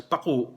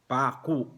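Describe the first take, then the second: First: "paku" with a quick short A and a glottal stop on the U; short first vowel. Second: "paku" slowly, long A, glottal stop on the final U; long first vowel. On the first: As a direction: clip the A of "paku", stop the U in the throat. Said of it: "mabilis... yung first syllable, hindi long vowel, pero meron pa ring glottal stops yung U". ("paku": mabilis na A, may glottal stop sa U)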